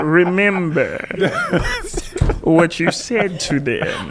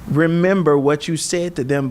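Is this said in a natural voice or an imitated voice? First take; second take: imitated; natural. First: It is spoken in an imitation of someone's voice. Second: It is spoken in the speaker's normal voice.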